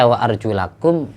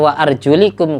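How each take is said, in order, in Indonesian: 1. Vokal setelah L adalah 'a'. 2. Vokal setelah L adalah 'i'.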